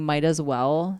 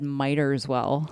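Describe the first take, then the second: First: The first word is said as 'might'. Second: The first word is said as 'miter'. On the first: The speaker calls it right. "instead of saying might as well" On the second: The speaker calls it wrong. "said miter as well"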